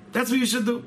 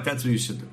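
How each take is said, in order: First: Much higher, pressing it home; insistent repeat. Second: Said in the usual way. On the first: Retold or imitated. Rabbi urging the patient to have faith, insistent. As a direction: raise the voice's pitch to urge it.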